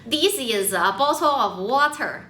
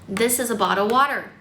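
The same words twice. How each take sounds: First: It is said with a Chinese accent. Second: It is said without a Chinese accent.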